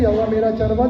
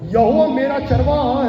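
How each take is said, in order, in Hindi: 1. इसे सादे ढंग से बोला जाता है, जैसे सामान्य पाठ। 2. इसे जोश के साथ बोला जाता है, ऊँची घोषणा की तरह। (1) "पर केवल ऐसे नहीं" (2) "उसको घोषणा करके बोलना है"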